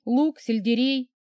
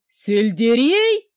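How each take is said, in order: First: Said in the usual way. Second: Loud, slow howled question. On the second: A narrator's reading. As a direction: howl the word in horror. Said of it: "взвыл Дмитрий Олегович".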